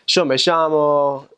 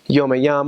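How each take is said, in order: First: The ll in llamo sounds like sh. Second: The ll in llamo sounds like a y.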